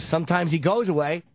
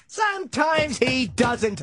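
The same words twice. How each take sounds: First: Said in the usual way. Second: Slow, pitched-up hammy sea captain; overdone Quint. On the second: Shown as a demonstration. Overdoing Quint's line for laughs, slow and high. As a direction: drag it out like a ham actor. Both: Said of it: "I would overdo it".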